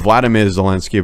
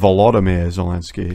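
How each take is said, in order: First: The first name begins with a clipped 'Vla' sound. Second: The first name begins with a full 'Volo' sound. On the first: The speaker calls it wrong. "Because you weren't saying it correctly" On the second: The speaker calls it right. "It's actually Volodymyr"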